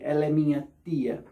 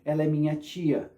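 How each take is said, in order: First: The word tia starts with a plain t sound. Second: The word tia starts with a ch sound. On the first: "I don't say" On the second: "we usually say chia, like"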